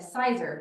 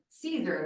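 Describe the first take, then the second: First: The first vowel sounds like 'sigh'. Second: The first vowel sounds like 'see'. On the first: "I have always said Sizer" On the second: "pronounced like Caesar, like the salad"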